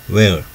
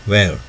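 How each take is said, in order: The two takes are said the same way.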